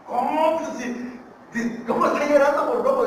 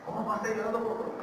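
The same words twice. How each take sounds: First: High, loud incredulous questioning; astonished disbelief. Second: Quick, raised-pitch puzzled question; quieter disbelief. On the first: Visitor questioning the rancher's odd answer about his dog, loudly incredulous. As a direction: burst out in acted disbelief. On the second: Visitor repeating the question to the rancher, mildly incredulous. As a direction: puzzle over it without raising the volume. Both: Acted.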